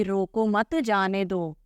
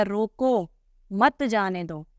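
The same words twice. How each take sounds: First: Slow, रोको मत जाने दो in one unbroken phrase; no pause after रोको. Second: रोको on its own, short break, then मत जाने दो; pause after रोको. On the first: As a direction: join रोको straight onto मत, no comma. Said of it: "इसका क्या हो गया". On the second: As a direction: put a comma's pause after रोको, before मत. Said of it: "और इसका हो गया". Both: Shown as a demonstration.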